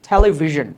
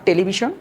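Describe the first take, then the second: First: The middle consonant is a voiced buzzing sound. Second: The middle consonant is a voiceless hissing sound. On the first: The speaker calls it right. "এটার উচ্চারণটা কি হবে দেখো" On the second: The speaker calls it wrong. "Not টেলিভিশন"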